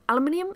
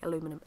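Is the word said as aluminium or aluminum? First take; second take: aluminium; aluminum. First: The word is said as aluminium, five syllables. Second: The word is said as aluminum, four syllables. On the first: This is the local way to say it. The speaker calls it wrong. "Over here we meant to say aluminium" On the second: This is how people elsewhere say it. The speaker calls it right. "I would prefer to say aluminum"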